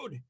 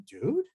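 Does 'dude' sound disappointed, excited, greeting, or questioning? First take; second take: excited; questioning. First: It sounds thrilled and excited. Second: It sounds like a question. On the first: Something wonderful just happened. "If you just won the, the lottery" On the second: The speaker is asking something. "If you're to ask a question"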